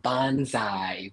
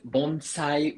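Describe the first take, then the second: First: "bonsai" as English speakers say it, bon-ZAI; English-style "bonsai", s turned into z; Z sound. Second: "bonsai" with a clean S, bon-SIGH; unvoiced s in the middle of "bonsai"; S sound. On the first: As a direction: say "bonsai" with a buzzing z in the middle. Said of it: "like, a Z sound". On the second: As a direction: say "bonsai" with a hissed s, not z. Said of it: "with the S sound". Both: Shown as a demonstration.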